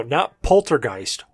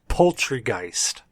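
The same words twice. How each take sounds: First: Said in the usual way. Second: Poultrygeist said slowly as POUL-try-geist; correcting pronunciation. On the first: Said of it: "No, no, not Poltergeist. Poultrygeist". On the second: Shown as a demonstration. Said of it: "No, no, not Poltergeist".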